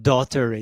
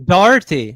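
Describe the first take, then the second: First: The first part sounds like 'daughter'. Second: The first part sounds like 'dar'. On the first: The speaker calls it wrong. "not Daughtery" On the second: The speaker calls it right. "it's Darty"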